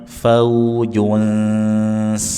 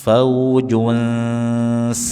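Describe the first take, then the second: No difference in how they are said.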